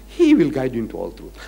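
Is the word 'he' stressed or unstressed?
unstressed. The pronoun 'he' is not emphasized.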